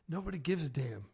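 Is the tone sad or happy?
sad. It is said in a sad, down tone.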